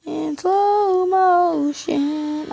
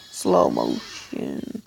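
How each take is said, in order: First: Very slow, drawn-out high slow-motion voice; mock slow-mo voice. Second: Very slow, deep, dragged slow-motion voice; mock slow-mo voice. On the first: Gamer acting out the replay, slow drawn-out voice. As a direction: stretch every sound like a slowed replay. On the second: Gamer mimicking a slowed replay, deep stretched slow motion. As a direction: drag each syllable like a slowed-down tape. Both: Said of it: "I wanna see it in slow-mo".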